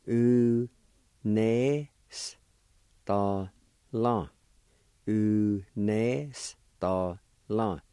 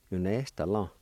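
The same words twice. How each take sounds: First: Very slow, each syllable of "U nes ta la" pulled apart; teacher spelling out "U nes ta la" slowly, syllable by syllable; slow syllable demo. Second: Said in the usual way. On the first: Shown as a demonstration. Teacher to students learning Cherokee, slow syllable-by-syllable demo. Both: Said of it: "It's pronounced like this".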